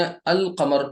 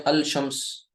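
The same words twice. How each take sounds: First: अल कमर with a clear l before the q; अल कमर, l fully spoken; lam pronounced. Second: अल शम्स with the lam wrongly sounded; deliberately wrong अल शम्स; wrong reading. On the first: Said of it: "इसको तो आपने अल कमर पढ़ दिया". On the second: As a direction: show the mistake: say the l in अल शम्स. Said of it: "गलत हो जाएगा". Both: Shown as a demonstration.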